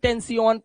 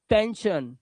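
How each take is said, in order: First: The ending is said as a 'see-an' sound. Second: The ending is said as a 'shun' sound. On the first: The speaker calls it wrong. "टेंसियन नहीं ... इयन इयन मत करना" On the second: The speaker calls it right. "आ की आवाज"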